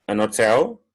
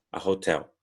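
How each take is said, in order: First: An hotel with a silent h, linked as a-notel; teacher contrasting British form. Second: A hotel with a clear h; teacher contrasting American form. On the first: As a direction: swallow the h in hotel. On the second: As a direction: breathe the h in hotel. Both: Shown as a demonstration. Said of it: "Tanto faz".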